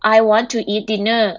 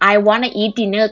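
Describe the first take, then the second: First: Want and to are said as two full words. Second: Want and to blend into one short word, wanna. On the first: "แทนที่เราจะพูดว่า" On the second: "ตัดถูกไปเลย"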